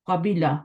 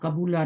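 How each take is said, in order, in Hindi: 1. b के बाद का स्वर i है। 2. b के बाद का स्वर u है। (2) "नहीं होता"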